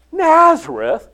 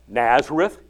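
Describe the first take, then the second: First: Nazareth? much higher, loud disbelieving rise; can't believe it's Nazareth; scoffing echo, pitch jumping up; incredulous. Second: Said in the usual way. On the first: Acted.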